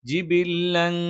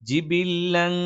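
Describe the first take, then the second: The two takes are said the same way.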